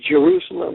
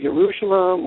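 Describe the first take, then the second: First: The word begins with a J sound. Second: The word begins with a Y sound. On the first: This is the English form of the name. "we put a J in like Jerusalem" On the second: This is the Hebrew form of the name. "instead of Jerusalem"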